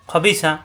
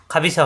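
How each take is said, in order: First: খবিসা opening on thick "kho"; heavy first syllable. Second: খাবিসা opening on plain "khaa"; wrong open vowel. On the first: Teacher models the word, খবিসা with heavy "kho". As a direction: round the first vowel of খবিসা. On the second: Teacher shows the mistake, খাবিসা with open "khaa". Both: Shown as a demonstration. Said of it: "খাবিসা হবে না কিন্তু".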